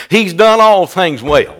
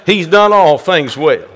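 Both takes have the same delivery.

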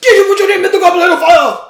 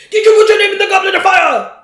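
First: Fast, much higher, very loud furious shout; Gambon's charging Dumbledore. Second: Fast, much higher, loud furious shout; Gambon's storming Dumbledore. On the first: Co-host mimics Gambon running at Harry, fast shouted accusation. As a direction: yell it while charging at him. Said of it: "here comes Michael Gambon just running at him". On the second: Co-host mimics movie Dumbledore storming at Harry, fast furious shout. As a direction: hurl it at him like an accusation. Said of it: "storms in and storms at him". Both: Retold or imitated.

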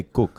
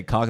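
First: "cook" with the vowel of book, standing for cock; Russian-style "cook", short oo vowel; Russian pronunciation. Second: Said in the usual way. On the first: Shown as a demonstration. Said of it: "they say cook". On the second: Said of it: "I feel like when Russians say cock".

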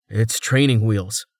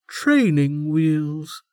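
First: Said in the usual way. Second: Drawn out, high and slow; slowly. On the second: A narrator's reading. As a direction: savour the odd phrase slowly. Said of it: "Vatrice said slowly".

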